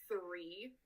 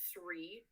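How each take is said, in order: First: The word begins with a th sound. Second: The word begins with an s sound.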